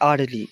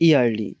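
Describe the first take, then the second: First: The word starts with a vowel sound. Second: The word starts with a y sound. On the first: The speaker calls it right. "ওটা আর্লি" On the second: The speaker calls it wrong. "আমি উচ্চারণটা ভুল বললাম"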